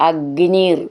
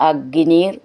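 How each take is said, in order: No difference in how they are said.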